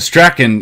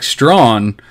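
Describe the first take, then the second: First: The surname sounds like 'Strachan'. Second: The surname sounds like 'Strawn'. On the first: The speaker calls it wrong. "it's definitely not Stra- Strachan either" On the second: The speaker calls it right. "It's actually Mike Strawn, um, is how to pronounce his last name"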